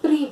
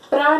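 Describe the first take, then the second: First: The syllable ends in an 'ee' vowel. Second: The syllable ends in an open 'a' vowel. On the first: The speaker calls it right. "प्री बोलेंगे" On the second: The speaker calls it wrong. "प्रा नहीं बोलेंगे"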